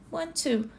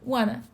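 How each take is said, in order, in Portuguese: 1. As duas palavras são ditas completas e separadas. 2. As duas palavras são reduzidas a uma só. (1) "tá numa entrevista, vai escrever um e-mail?" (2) "tá com seus amigos, colegas, até mesmo em casa"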